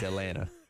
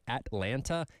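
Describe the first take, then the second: First: The second t sound is dropped. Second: The second t sound is clearly pronounced. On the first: The speaker is from the area. The speaker calls it right. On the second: The speaker is not from the area. The speaker calls it wrong. "when people from out of town say"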